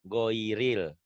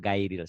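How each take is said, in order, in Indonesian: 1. Vokal pertama adalah bunyi 'o' bulat. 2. Vokal pertama adalah bunyi 'a' terbuka. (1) "Ada unsur O-nya" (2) "Salah. Bunyinya bukan gairil"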